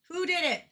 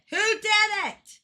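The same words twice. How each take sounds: First: Said in the usual way. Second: Higher, slow and loud; demanding. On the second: Real, not acted. Streamer demanding who did it, loud and slow. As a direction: demand an answer slowly. Repeats the question louder.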